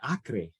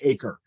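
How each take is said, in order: First: Acre is said with a Spanish pronunciation. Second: Acre is said like the English word acre. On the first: The speaker calls it right. "I'm going to pronounce it like that" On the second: The speaker calls it wrong. "I don't think it's La Tierra de Acre"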